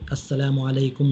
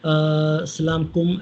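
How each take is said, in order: First: The greeting is said fully with every syllable. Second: The greeting is clipped into one short word. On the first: The speaker calls it right. "सही तरीके से" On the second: The speaker calls it wrong. "ऐसा इस अंदाज़ से सलाम कहते हैं, तो उन्हें सिखाना चाहिए"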